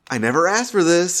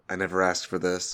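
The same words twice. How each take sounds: First: The line is said in a triumphant, proud way. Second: The line is said in a flat, subdued way.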